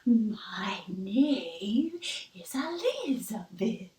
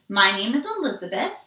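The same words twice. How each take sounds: First: It is said in a spooky ghost voice. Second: It is said in a normal speaking voice. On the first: "Now I'm going to say it in my spooky voice" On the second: "This is my regular voice"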